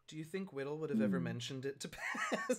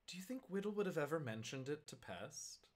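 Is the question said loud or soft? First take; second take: loud; soft. First: The question is said at a louder volume. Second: The question is said at normal, softer volume.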